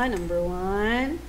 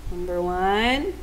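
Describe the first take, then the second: No difference in how they are said.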